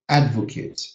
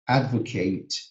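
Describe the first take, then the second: First: The last syllable sounds like 'it'. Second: The last syllable sounds like 'eight'. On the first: "It's going to sound it" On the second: "The verbs pronounced advocate ... those would be pronounced ate"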